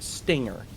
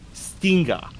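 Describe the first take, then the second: First: It is said in a plain English accent. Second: It is said in a Japanese-style accent. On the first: "the word stinger" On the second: "how would someone from Japan mispronounce the word stinger?"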